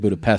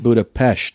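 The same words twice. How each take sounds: First: The last syllable ends with a plain s sound. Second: The last syllable ends with an sh sound. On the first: This is how English speakers say it. The speaker calls it wrong. "They say Budapest" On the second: This is how Hungarians say it. The speaker calls it right. "But it's Budapest"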